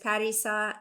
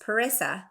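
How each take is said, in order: First: The name is said with a Farsi pronunciation. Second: The name is said with an English pronunciation. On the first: This is the name as said in its original language. "in Farsi, like you said, it's" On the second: This is an adapted form that draws less attention. "the way that was going to make it easiest for me to make friends"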